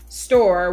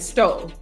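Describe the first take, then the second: First: It is said in a standard accent, r pronounced. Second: It is said in a Chicago accent, r dropped.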